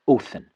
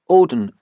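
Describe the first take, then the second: First: The middle consonant is a 'th' sound. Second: The middle consonant is a 'd' sound. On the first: The speaker calls it right. "but as a th" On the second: The speaker calls it wrong. "not pronounced as a D"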